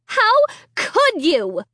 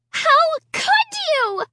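First: Accusing. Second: High shrill accusing scream. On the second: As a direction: scream it in horror. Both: A narrator's reading. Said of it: "Sarah screamed".

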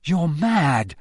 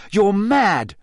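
First: Higher-pitched accusation with a falling end; blurted accusation. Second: High, loud accusation; uncontrolled outburst. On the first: Harry blurts at Moody, accusing. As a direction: blurt it out at him. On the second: Harry cannot stop himself accusing Moody, outburst. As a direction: blurt it harder, unable to hold back. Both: A narrator's reading. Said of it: "He couldn't stop himself".

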